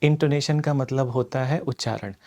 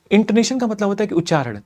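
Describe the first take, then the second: First: Slowed down. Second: Fast demo take, rattled off; sped up. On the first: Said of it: "अभी मैं अपनी speed को कम करता हूँ". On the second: Teacher showing students the fast speed, rapid delivery. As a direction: race through it to show the fast speed. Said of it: "अब मैं अपनी speed को बढ़ाता हूँ". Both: Shown as a demonstration.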